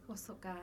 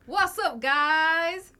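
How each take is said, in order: First: It is said quietly and calmly. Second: It is said loudly with more energy.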